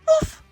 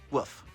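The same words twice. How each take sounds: First: It is said in a high, scared voice. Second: It is said flatly, with little emotion.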